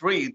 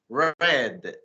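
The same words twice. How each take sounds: First: It is said as the present tense form. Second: It is said as the past tense form. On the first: The action happens now or habitually. "when you say it in present" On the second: The action happened before now. "when you try to say it in the past"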